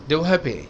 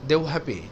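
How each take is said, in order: The two takes are said the same way.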